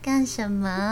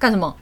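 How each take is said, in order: First: It is said in a soft, gentle tone. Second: It is said in a fierce, harsh tone.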